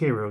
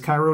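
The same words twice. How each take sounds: First: Cairo is said the local Missouri way. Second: Cairo is said the usual way for Egypt. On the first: It names the local town near Missouri. The speaker calls it wrong. "not Cairo. You uh, people from Missouri" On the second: It names the city in Egypt. The speaker calls it right. "that is Cairo"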